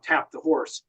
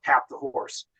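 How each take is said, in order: First: Said in the usual way. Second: Hushed call. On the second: Retold or imitated. The lieutenant in the bow of the landing boat calls the signal, hushed and breathless. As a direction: tap the horse almost whispered, barely voiced.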